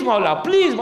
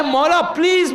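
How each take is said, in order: First: مولا please called out harder, falling on please; urgent plea. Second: First مولا please lifted higher, coaxing; mild pleading. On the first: Preacher models an insistent plea to the Imam, called out. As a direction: repeat مولا please as a fuller cry. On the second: Preacher models a fond plea to the Imam, lightly coaxing. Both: Retold or imitated. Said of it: "پیار کریں".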